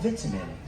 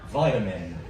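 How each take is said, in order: First: It is said with a British pronunciation. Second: It is said with an American pronunciation.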